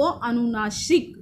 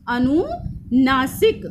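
First: Said in the usual way. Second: अनुनासिक drawn out at half speed; slow syllable-by-syllable. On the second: Shown as a demonstration. Teacher repeating the term for students, slowly drawn out. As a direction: stretch out अनुनासिक, part by part.

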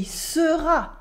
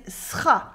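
First: "sera" in two full syllables, suh-ra; full vowel. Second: "sera" cut to one syllable, sra; eaten vowel. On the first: French teacher showing what she doesn't say, "sera" with its e sounded. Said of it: "She also doesn't say". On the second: French teacher copying the waitress, vowel dropped from "sera". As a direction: drop the e of "sera", s straight into r. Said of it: "she's eating some vowels". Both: Shown as a demonstration.

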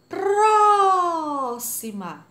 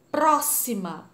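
First: Próxima with PRÓ held very long, high and loud; exaggerated stress on PRÓ. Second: Próxima with a firm, loud PRÓ, slowly; stress on PRÓ. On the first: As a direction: call out próxima, stretching "próóó" right out. (próxima puxando muito a sílaba "pró", bem alto) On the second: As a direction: lean on the first syllable of próxima. (próxima marcando bem a sílaba "pró") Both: Shown as a demonstration. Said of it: "A sílaba tônica é a antepenúltima".

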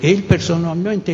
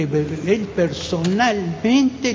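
First: Said in the usual way. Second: "personalmente" drawn out very slowly, with weight on "Él"; emphatic and slow. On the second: Shown as a demonstration. Witness insisting to the audience, slow and emphatic. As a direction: spell it out slowly for everyone present. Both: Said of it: "le digo a todos los que están presentes".

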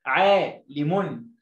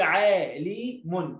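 First: Slow عالم, long aa running into لِمٌ as one word; joined reading. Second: عالم broken into three separate syllables, عا، لي، مٌ; wrong-way demo, pause between each syllable of عالم; chopped-up word. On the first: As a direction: read عالم whole, unhurried, without chopping. (قراءة عالم موصولة ببطء) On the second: (تقطيع عالم إلى مقاطع منفصلة) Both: Shown as a demonstration. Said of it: "ما بحبش التقطيع في الكلمة".

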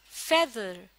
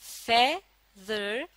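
First: Said in the usual way. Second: feather split slowly into two parts, फे, then दर; syllable-by-syllable feather, held apart for a learner; sounded out in parts. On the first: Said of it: "तो क्या बना?". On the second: Shown as a demonstration. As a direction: say feather slowly, pausing between फे and दर. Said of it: "फे और दर की आवाजों को".

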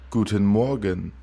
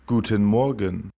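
The two takes are said the same way.

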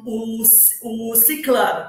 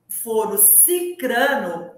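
First: Ciclano said slowly, the wrong form with an l; drawn-out ciclano, the l-form shown as the mistake; wrong form demo. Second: Cicrano said slowly, with r in the second syllable; slow clear cicrano with an r, the right form; correct form demo. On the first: Teacher shows listeners the wrong word, slow and deliberate. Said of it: "que é o, a forma errada". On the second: Teacher gives listeners the correct word, slow and deliberate. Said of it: "O correto é cicrano". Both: Shown as a demonstration.

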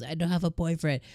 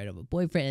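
First: Mild mock yell, pitched up; half-hearted yell of the line, a bit higher; retold yell. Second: Said in the usual way. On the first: Yamada calling it out toward Ichikawa, a mild mock yell. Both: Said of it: "And she yells".

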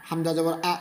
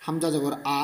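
Both takes have the same delivery.

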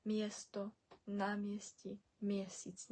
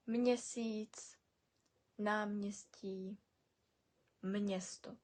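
First: Мєсто, намісті, мєсіць with "mye" and no n; wrong pronunciation. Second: Мєсіць, намністі, мєсто with "mnye" for "mye"; added n. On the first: Teacher showing what never to say, мєсто without n. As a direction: say мєсто as "myesto", softer, as the mistake. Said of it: "Ніколи не будемо казати". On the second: Teacher modelling examples, мєсто said slowly as "mnyesto". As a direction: put a soft n after each m, as in "mnyesto" for мєсто. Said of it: "завжди добавляємо н". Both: Shown as a demonstration.

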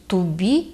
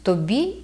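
First: Тубі with u in the first syllable; dialect тубі. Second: Said in the usual way. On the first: Shown as a demonstration. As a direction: Podillia тубі, unstressed o turned to u. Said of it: "кажуть". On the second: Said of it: "замість «тобі»".

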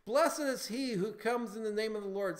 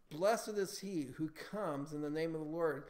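First: Loud, raised-pitch acclamation; proclaiming. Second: Said in the usual way. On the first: Acted. People proclaiming Jesus king, loud acclamation. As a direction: proclaim it boldly as the crowd. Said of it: "they were proclaiming him king". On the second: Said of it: "Psalm one eighteen twenty-six".

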